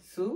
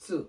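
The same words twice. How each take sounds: First: সু with a plain light s; সু from the tip of the tongue; thin "su". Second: সু opened with a ts burst; pressed "tsu". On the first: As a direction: say সু as a thin "soo". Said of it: "এই দুইটার pronunciation আমাকে মাথায় রাখা". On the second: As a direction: say সু as "tsoo". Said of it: "তা লাইনের একটি অক্ষর হচ্ছে". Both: Shown as a demonstration.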